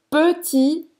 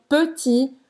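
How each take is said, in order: Both takes have the same delivery.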